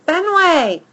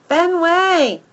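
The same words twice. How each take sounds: First: Loud call, pitched high and falling; yelling his name. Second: High, loud shout falling away; shouting his name. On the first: Girl yelling for her dog. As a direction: shout the name across the park. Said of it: "she yells". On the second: Second girl shouting for the dog. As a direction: call out the name as she chases. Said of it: "she shouts". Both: A narrator's reading.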